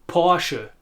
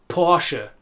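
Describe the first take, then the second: The two takes are said the same way.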